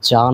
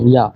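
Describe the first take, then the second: First: The word starts with a 'j' sound. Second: The word starts with a 'y' sound. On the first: The speaker calls it wrong. "এটা কিন্তু যা না" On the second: The speaker calls it right. "ইয়টের উচ্চারণটা হচ্ছে ইয়ার মতো"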